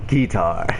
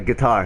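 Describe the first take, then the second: First: It is said in a southern country American accent. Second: It is said in a general northern American accent. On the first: "when you got that real country accent" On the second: "it's not a guitar"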